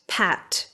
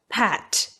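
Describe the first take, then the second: Both takes have the same delivery.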